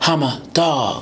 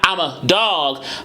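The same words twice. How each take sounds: First: The phrase begins with a breathy, aspirated onset. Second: The phrase begins with a clean, unaspirated onset. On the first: The speaker calls it right. "a lot more aspiration" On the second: The speaker calls it wrong. "It's not I'm a dog"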